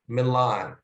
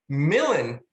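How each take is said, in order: First: "Milan" said the usual way, stress on the last syllable; the familiar "Milan"; plain Milan. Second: "Millen" squashed to two short syllables, stress on the first; "Millen" rhyming with "villain"; scansion pronunciation Millen. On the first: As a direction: say "Milan" as everyone knows it. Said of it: "this town in Italy is called Milan". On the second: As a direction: clip "Millen" to fit the verse meter. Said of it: "it has to be pronounced Millen". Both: Shown as a demonstration.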